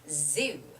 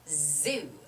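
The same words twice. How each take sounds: First: The word begins with a buzzing z sound. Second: The word begins with a buzzing z sound.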